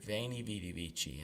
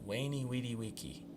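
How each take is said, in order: First: It is pronounced in a non-classical Latin style. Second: It is pronounced in the classical Latin style. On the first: The speaker calls it right. "So much nicer to hear" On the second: The speaker calls it wrong. "someone who has learned classical style say"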